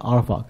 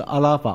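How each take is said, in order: First: The name is said as a-er-fa. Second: The name is said as a-la-fa. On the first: This is the original pronunciation. "真正的读音是这样读的" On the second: This is the form used in the Chinese translation. "我们中文把它翻译成阿拉法"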